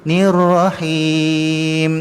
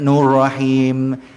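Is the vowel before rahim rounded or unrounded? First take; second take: unrounded; rounded. First: The vowel before rahim is unrounded, lips not pouted. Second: The vowel before rahim is rounded and pushed forward. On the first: The speaker calls it right. "Bukan muncung itu tuan" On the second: The speaker calls it wrong. "ramai orang yang jadi nur... bunyi macam ke depan"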